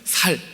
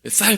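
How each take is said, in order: First: It is said the Gyeongsang way. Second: It is said with the standard pronunciation. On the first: "경상도 분들이 쌀 발음을 못한대요" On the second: "쌀 발음해봐"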